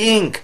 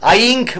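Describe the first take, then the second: First: The word begins with a short i sound. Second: The word begins with an eye sound. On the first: The speaker calls it right. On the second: The speaker calls it wrong. "আইঙ্ক বলেনি"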